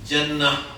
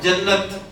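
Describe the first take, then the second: First: The word ends with an 'h' sound. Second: The word ends with a 't' sound. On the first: "हा की आवाज में उसे बोलना है" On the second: "ता की आवाज आ रही है ना"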